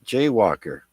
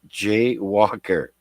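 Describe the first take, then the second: First: The name is said quickly, run together. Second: The name is said at a normal, unhurried pace. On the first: It sounds like the word for crossing streets illegally. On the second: It is simply a person's name.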